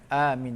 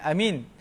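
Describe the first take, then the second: First: The first vowel is held long. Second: The first vowel is cut short. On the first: The speaker calls it right. "A itu dua harakat, min pun dua harakat" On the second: The speaker calls it wrong. "Jangan amin"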